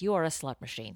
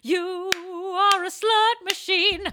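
First: Said in the usual way. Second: Mock exclaim.

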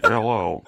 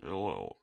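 First: Buzzy hole-in-the-throat hello, a touch loud; stoma voice. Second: Very soft breathy-free low hello, much softer; quiet stoma voice. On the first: [name] greets listeners in stoma voice. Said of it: "I sound like motherfucking Stephen Hawking". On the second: [name] greets listeners, much softer. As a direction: murmur the greeting way down. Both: Pretend.

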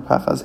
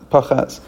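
First: PAchaz, first syllable stressed, second one short. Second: PaCHAZ, light first syllable, stressed second; stress on last syllable. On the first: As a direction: say Pachaz with the weight on PA. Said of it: "the emphasis is on the first". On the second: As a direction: say pachaz with the weight on CHAZ. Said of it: "emphasis would be on the last syllable". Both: Shown as a demonstration.

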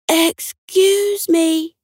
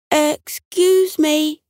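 First: Higher, more insistent drawn-out call; calling a little louder. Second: High, drawn-out polite call. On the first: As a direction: stretch it out and pitch it up to be heard. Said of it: "a little louder". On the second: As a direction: call up slowly to someone in a tree. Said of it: "Buck called up". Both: A narrator's reading.

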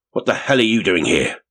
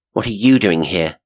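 First: Livid demand, raised a little in pitch. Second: Loud, steady retort with "you" punched; steady retort, stress on you. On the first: Man confronts woman who caught him digging, livid. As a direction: demand it with a touch of fury. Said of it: "His expression was livid". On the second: Woman answers the man confronting her, steady, "you" stressed. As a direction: throw the question back, leaning hard on "you". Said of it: "astonished at the steadiness of her voice". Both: A narrator's reading.

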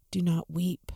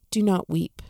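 First: Softer, hushed comfort; gentle and tender. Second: Said in the usual way. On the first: Shown as a demonstration. Preacher gives Jesus's words to the grieving widow, softly and tenderly. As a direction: lay the words down gently, like a hand on a shoulder. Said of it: "Those simple words". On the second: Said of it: "And he said to her".

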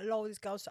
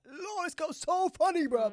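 First: Said in the usual way. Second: High, loud delighted gushing; giddy late-night gush. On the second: Retold or imitated. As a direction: gush about her like at one a.m. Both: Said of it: "I was like, one A M".

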